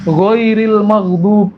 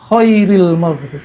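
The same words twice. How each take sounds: First: Ghoiril maghdub slow with a voiced gargled gh; correct ghoin. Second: Khairil maghdub slow with a rasping unvoiced kh; wrong kho. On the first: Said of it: "ghoin jadi kho". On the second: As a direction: drawl Khairil, kh scraped. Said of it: "Jadi kho". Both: Shown as a demonstration.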